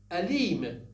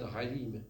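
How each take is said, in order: First: أليم starting with a glottal stop, not a breathy h; أليم, hard onset on the a; hamza not ha. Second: حليم with a breathy throat h at the start. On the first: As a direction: begin أليم with a clean throat catch. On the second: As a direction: say حليم with the h, not the catch. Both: Shown as a demonstration. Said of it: "Not حليم".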